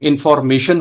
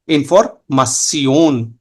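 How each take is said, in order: First: The word is pronounced the English way. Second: The word is pronounced the German way. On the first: "इंफॉर्मेशन होगा आपका इंग्लिश में" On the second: "but German में इंफॉर्मासियोन"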